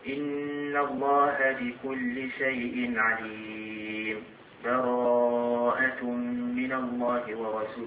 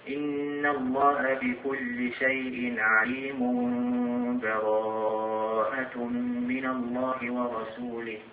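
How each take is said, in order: First: There is a brief stop without a breath. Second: The two verses run together with no break. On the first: "من دون نفس" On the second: "نوصل بين آخر الأنفال وأول البراءة"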